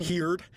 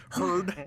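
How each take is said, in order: First: "Heard" said like "heered"; mispronounced word. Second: Said in the usual way. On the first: Real, not acted. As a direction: say "Heard" with the vowel of "here".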